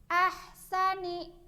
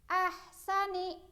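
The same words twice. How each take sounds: Both takes have the same delivery.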